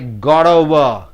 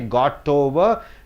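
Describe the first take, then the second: First: The t between vowels sounds like a d. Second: The t is a clear, separate t sound. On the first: The speaker calls it right. "You say got over" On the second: The speaker calls it wrong. "You don't say got over"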